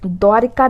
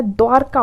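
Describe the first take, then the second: First: द्वारिका in three beats with 'ri'; wrong pronunciation. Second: द्वारका as 'dwaar-ka', no i; correct pronunciation. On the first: Teacher showing the mistake, 'dwaa-ri-ka' for द्वारिका. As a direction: add an i after r in द्वारिका. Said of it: "द्वारिका नहीं होता है". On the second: Teacher correcting students, 'dwaar-ka' for द्वारका. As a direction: join r straight to k in द्वारका. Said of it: "द्वारका होता है". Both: Shown as a demonstration.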